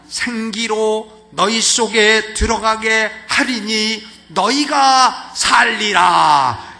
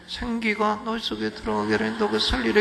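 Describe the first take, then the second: First: The mouth opens wide, articulating each word clearly. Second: The mouth barely opens, so the words blur. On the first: The speaker calls it right. "입을 크게 벌리는 거예요" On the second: The speaker calls it wrong. "전달도 안 되고요"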